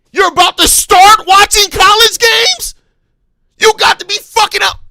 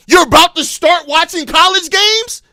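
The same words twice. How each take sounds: First: Much higher and louder, screaming in disbelief; furious shout. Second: Incredulous rising question, getting heated; angry disbelief. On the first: Fan screaming at the manager over college games, outraged yell. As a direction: blow up at him. Repeats the question, exploding. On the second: Fan mocking the manager's college-games plan, heated. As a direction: demand it in disbelief. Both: Real, not acted.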